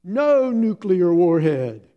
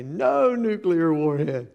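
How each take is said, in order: First: Put-on loud, higher, slow childish refusal; a tired little girl digging in her heels; defiant toddler. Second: Slow, louder mock child voice; husband teasing his wife with the toddler's line; joking toddler quote. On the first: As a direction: toddler flatly refusing the game. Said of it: "she goes". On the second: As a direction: tease your wife with the family joke. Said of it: "I'll look at Kathy and I'll say".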